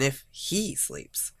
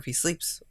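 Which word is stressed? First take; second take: he; sleeps. First: The word he is stressed. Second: The word he is not stressed.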